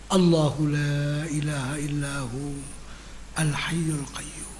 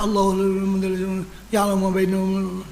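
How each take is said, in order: First: It is recited slowly with every word clear. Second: It is recited quickly with the words swallowed. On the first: The meaning sinks into the heart. The speaker calls it right. "Baca pelan-pelan" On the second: The meaning cannot be made out. The speaker calls it wrong. "Dia telan kalimat"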